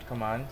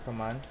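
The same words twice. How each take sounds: The two takes are said the same way.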